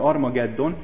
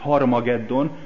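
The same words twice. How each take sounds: First: The word starts directly with a vowel. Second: The word starts with an h sound. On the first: The speaker calls it wrong. "európai nyelvek nem így fordítják le ... hanem így" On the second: The speaker calls it right. "ahogy kellene"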